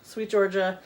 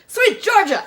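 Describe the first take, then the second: First: It is said plainly, without enthusiasm. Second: It is said with lively enthusiasm.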